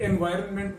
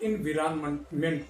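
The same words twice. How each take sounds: First: एनवायरनमेंट said with "en"; one pronunciation. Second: एनवायरनमेंट said as "in-vi-ran-ment"; other pronunciation. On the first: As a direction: say एनवायरनमेंट starting "en-vai". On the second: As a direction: say एनवायरनमेंट starting "in-vi". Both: Retold or imitated. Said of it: "कुछ लोग एनवायरनमेंट बोलते हैं".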